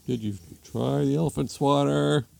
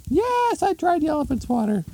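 First: Put-on husband, slightly raised pitch; husband asking. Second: Very high falsetto retort; hammed-up shrieky wife; exasperated wife. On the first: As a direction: ask it in a mild cartoon husband voice. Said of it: "Husband comes downstairs". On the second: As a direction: fire it back in an exasperated squeal. Exasperated wife answers husband.

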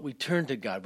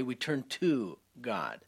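First: Said in the usual way. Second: "we turn to God" slowed, each word weighed; slow emphasis. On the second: Real, not acted. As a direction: lean on "to God" slowly.

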